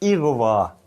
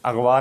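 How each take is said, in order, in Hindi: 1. शब्द 'i' स्वर से शुरू होता है। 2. शब्द 'a' स्वर से शुरू होता है। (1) "तलफ़ुज़ इसका है इगवा" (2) "अगवा नहीं है"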